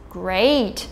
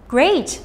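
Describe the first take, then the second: First: Slow, annoyed, sarcastic 'great'. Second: Pleased, upbeat 'great'. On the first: Teacher showing English tone with a sarcastic, annoyed 'great'. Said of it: "using sarcasm to indicate that the speaker is annoyed". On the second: Teacher showing English tone with a pleased 'great'. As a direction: say it as if truly pleased. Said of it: "indicating that the speaker is pleased". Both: Shown as a demonstration.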